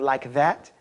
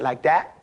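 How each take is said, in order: First: "like that" with a clear th; standard pronunciation. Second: "like that" with "that" said as "dat"; broken English. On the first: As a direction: say "like that" carefully, th in "that". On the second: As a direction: say "like that" colloquially, d for th. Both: Shown as a demonstration. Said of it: "instead of like that".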